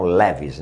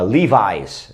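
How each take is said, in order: First: Levi's said "LEH-vees"; Levi's with open eh and short ee ending; Brazilian pronunciation of Levi's. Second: Levi's said "LEE-vize"; Levi's with a long ee, then "vize"; English pronunciation of Levi's. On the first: Retold or imitated. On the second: Shown as a demonstration. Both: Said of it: "que vocês falam Levi's".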